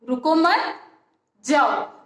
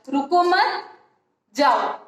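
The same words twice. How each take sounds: Both takes have the same delivery.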